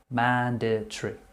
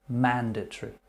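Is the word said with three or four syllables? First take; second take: three; three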